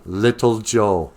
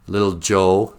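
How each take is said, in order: First: Little Joe drawn out slowly, weight on Little; stress on Little Joe. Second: Said in the usual way. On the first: Shown as a demonstration. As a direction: stretch out Little Joe mockingly.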